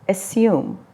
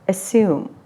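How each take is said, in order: First: It is said with a British accent. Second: The same.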